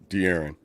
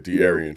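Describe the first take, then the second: First: The name ends with a short '-on' sound. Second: The name ends with an extra '-ian' sound. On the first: This is the name's proper pronunciation. The speaker calls it right. "Proper pronunciation" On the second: This imitates someone else's mispronunciation. The speaker calls it wrong. "He calls him De'Arian Fox"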